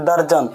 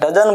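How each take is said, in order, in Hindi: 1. यह 'darjan' की तरह बोला जाता है, इसमें r की आवाज़ है। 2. यह 'dozen' की तरह बोला जाता है, इसमें r की आवाज़ नहीं है। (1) "जैसे आप बोलते हैं दर्जन ... ये दर्जन मत बोलिए" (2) "तो डजन बोला जाता है"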